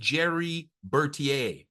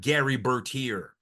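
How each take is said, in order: First: The first name begins with a J sound. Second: The first name begins with a hard G. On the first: The speaker calls it right. "He should be named Jerry Bertier" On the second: The speaker calls it wrong. "not Gary Bertier"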